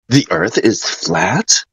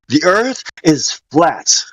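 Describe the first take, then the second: First: It is said as a question, ending high. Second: It is said as a statement, ending low. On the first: It is asked as a question. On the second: It is asserted as a fact.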